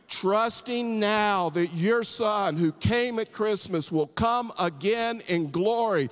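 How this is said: It is said with strong, heartfelt conviction.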